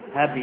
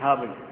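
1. تُنطق الكلمة مرققة وناعمة. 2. تُنطق الكلمة مفخمة بلكنة ريفية. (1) "هبي يعني خفيفة" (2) "مش هبي"

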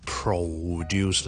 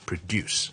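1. 第一个音节要读得重，大声一点。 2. 第一个音节读轻，第二个音节要重读。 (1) "咁所以前面咧我哋就唔需要太强地produce 啦" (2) "将后面个音节咧再读得强啲，前面嗰个再读得轻啲。"

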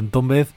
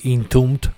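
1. El nombre se lee con sonidos de la ortografía española. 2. El nombre se pronuncia con sonidos ingleses. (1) "los pronuncio como se escriben" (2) "no me sale decir Entombed"

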